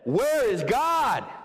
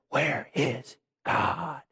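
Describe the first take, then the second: First: It is said in a loud, raised voice. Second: It is said in a hushed whisper.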